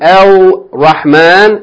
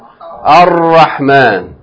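First: The l is sounded before the r. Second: The l is dropped and the r doubled. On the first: The speaker calls it wrong. "Instead of saying" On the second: The speaker calls it right. "you're going to say what?"

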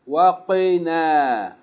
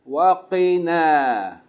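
Both takes have the same delivery.

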